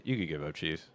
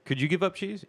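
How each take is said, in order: First: "You could give up cheese" low and quiet, as a settled answer; matter-of-fact statement. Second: "Could you give up cheese" asked high, lifting on UP; questioning. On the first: Answering for his friend, low matter-of-fact "You could give up cheese". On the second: Turning the question on his friend, questioning "Could you give up cheese". Asks, then answers it himself. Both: Real, not acted.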